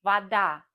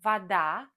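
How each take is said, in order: First: Вода said va-DA, louder final a; vaDA, clear model to repeat; stress on the last syllable. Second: Вода said va-DA, stress on the final a; vaDA, lean on the end; stress on the last syllable. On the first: Teacher drills learners: Вода stressed on the end. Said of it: "Repeat after me". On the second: Teacher shows learners: вода stressed on the end. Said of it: "For example". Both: Shown as a demonstration.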